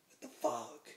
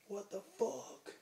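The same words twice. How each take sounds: First: Louder echo at his usual pitch; mock startled reply; retold startled echo. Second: High, drawn-out disbelief; higher, slow mock outrage; retold incredulous bouncer. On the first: Teller echoes the bouncer's words. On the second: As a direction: imitate a bouncer looking up in disbelief, stretching it out. Bouncer's startled challenge, retold.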